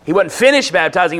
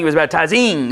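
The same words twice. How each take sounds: First: "finished" punched, "baptizing" left ordinary; stress on FINISHED. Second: "baptizing" with its -ing leaned on; stress on -ING. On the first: Preacher rules out an ended action, stressing "finished". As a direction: lean on the word "finished". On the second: Preacher shows ongoing action, "baptizing" with emphasized -ing. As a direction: stretch the last syllable of "baptizing". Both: Shown as a demonstration. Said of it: "that's a continuous word".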